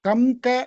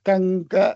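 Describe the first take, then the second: First: The nasal before the g sounds like m. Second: The nasal before the g sounds like ng. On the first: The speaker calls it wrong. "அப்படி சொல்லக்கூடாது" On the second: The speaker calls it right. "கங்க அப்படி சொல்லணும்"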